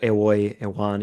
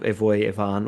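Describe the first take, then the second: First: The words are said with a w sound. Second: The words are said with a v sound.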